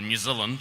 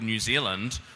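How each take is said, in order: First: It is said in a New Zealand accent. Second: It is said in a non-New Zealand accent.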